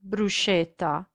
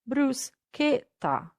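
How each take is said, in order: First: The middle consonant is soft, not a k. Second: The middle consonant is a hard k sound. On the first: The speaker calls it wrong. "the correct pronunciation is not bruschetta" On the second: The speaker calls it right. "but bruschetta"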